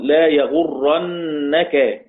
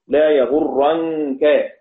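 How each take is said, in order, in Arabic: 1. النون مشددة وبعدها حركة. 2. النون خفيفة وساكنة، وتُخفى مع الكاف. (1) "دي مشددة مفتوحة" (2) "نون ساكنة بعدها كاف إخفاء"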